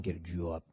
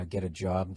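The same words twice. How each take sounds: First: Low, soft Boston accent on "job". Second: Said in the usual way. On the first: Shown as a demonstration. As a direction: say "job" like jaw plus b, Boston style. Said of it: "working on your Boston accents". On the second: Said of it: "Instead of saying".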